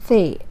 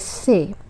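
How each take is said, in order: First: It begins with a soft th sound. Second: It begins with a plain s sound. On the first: This is how Arabic speakers say it. "in Arabic it's thay, very soft thay" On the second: This is how Urdu speakers say it. "in Urdu we just say say"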